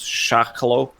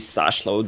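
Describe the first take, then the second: First: The name begins with an sh sound. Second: The name begins with a plain s sound. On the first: The speaker calls it right. "The S and H, it must be Sh" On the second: The speaker calls it wrong. "It can't be Sashlo"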